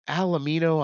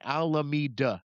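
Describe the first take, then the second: First: The name ends with the sounds 'mino'. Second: The name ends with the sounds 'meda'. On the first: The speaker calls it wrong. "he mispronounced it" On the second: The speaker calls it right. "right on the sign, Alameda"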